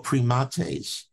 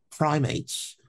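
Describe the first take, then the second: First: "primates" in three syllables, pri-MAH-tays; "primates" as the Latin order name, pree-MAH-tayz; scientific Latin pronunciation. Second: Said in the usual way. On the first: Shown as a demonstration. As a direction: say "primates" slowly as Latin, stressing the middle syllable. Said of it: "if we use the scientific term of the order". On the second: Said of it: "if we use the scientific term".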